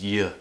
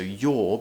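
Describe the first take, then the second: First: The word is reduced to a weak form. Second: The word is said in its full form. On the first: "your becomes y" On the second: "in its true form"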